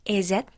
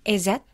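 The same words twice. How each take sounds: The two takes are said the same way.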